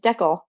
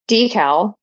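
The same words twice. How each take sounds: First: It is said the Canadian way. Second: It is said the American way. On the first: "in can Canadian pronunciation is decal" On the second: "are both U S pronunciations"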